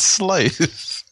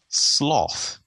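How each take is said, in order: First: The vowel differs from the vowel in 'moth'. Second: The vowel matches the vowel in 'moth'. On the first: The speaker calls it right. "It's sloth" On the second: The speaker calls it wrong. "Who says sloth?"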